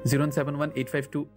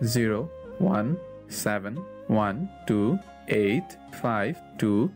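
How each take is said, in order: First: The number is said fast. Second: The number is said slowly.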